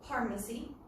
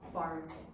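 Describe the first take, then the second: First: It begins with a P sound. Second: It begins with an F sound. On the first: The speaker calls it wrong. "We don't say pharmacy" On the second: The speaker calls it right. "we say pharmacy"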